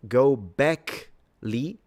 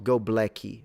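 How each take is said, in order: First: The second syllable sounds like 'beck'. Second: The second syllable sounds like 'black'. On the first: The speaker calls it right. "So go Beckley" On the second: The speaker calls it wrong. "not go Blacky"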